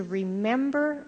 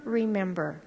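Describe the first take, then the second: First: Remember drawn out slowly, rising pitch; slow emphatic remember. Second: Remember repeated softer with falling tune. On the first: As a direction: lean on remember, slow and lifting. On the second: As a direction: let remember settle down, quietly. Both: Shown as a demonstration. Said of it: "the injunction to remember".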